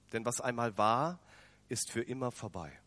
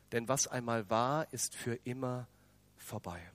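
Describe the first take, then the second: No difference in how they are said.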